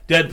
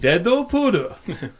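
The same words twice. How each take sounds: First: It is said with ordinary English pronunciation. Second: It is said with Japanese-style pronunciation.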